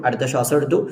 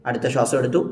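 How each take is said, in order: The two takes are said the same way.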